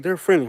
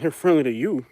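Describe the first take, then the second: First: Lightly voiced neighbor, pitched up; offhand imitation of the neighbor, a bit higher; quoted neighbor. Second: Retold comeback with "you" picked out; retold retort. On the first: Neighbor vouching for her two boxers, lightly imitated. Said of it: "And she's like". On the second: Answering the neighbor about her dogs, stress on "you". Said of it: "I'm like".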